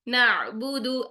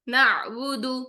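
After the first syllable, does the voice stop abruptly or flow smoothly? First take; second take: flowing; flowing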